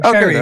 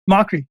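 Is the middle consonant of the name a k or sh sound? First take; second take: sh; k. First: The middle consonant is an sh sound. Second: The middle consonant is a k sound. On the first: The speaker calls it right. "she taught me actually how to say his name" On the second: The speaker calls it wrong. "That that that's actually how I've been saying it too"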